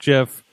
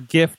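First: The word begins with a soft G sound. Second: The word begins with a hard G sound. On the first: The speaker calls it wrong. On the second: The speaker calls it right.

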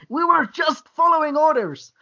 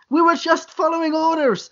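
First: It is read with strong feeling. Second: It is read flatly, without feeling.

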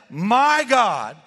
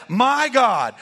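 Both takes have the same delivery.

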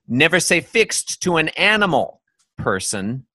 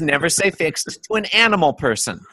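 First: There is a pause after "animal". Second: There is no pause after "animal".

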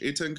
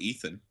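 First: The middle consonant is a plain t sound. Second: The middle consonant is a th sound. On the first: The speaker calls it right. "It's E-T-A-N" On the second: The speaker calls it wrong. "There's no H. It's not Ethan"

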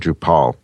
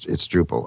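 First: The ending is said like the end of Nepal. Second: The ending is said like the word pull. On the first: The speaker calls it wrong. "I'm saying Drupal. I don't know why. Like it's from another country" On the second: The speaker calls it right. "but it's Drupal"

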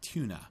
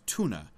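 First: The word is said in a British accent. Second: The word is said in an American accent. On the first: "It's more like tuna" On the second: "like an American would pronounce the name of the fish"

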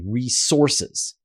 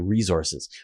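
First: The middle consonant is a hissing s sound. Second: The middle consonant is a buzzing z sound. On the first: "an American would say resources" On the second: "the way I say resources with it, like Zed"

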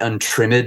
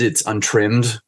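First: The -ed ending is said as a separate syllable. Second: The -ed ending adds no extra syllable. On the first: The speaker calls it wrong. "it's not" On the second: The speaker calls it right.

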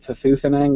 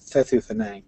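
First: The stress falls on the second syllable. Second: The stress falls on the first syllable. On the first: The speaker calls it wrong. "I mispronounced it Thethu Thanang with a stress on the second syllable instead of the first" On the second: The speaker calls it right. "Stress is on the first and last syllable"

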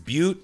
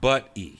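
First: The name does not sound like 'buddy'. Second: The name sounds like 'buddy'. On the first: The speaker calls it right. "it's Butte" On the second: The speaker calls it wrong. "not Butte. Because I always called it Buddy"

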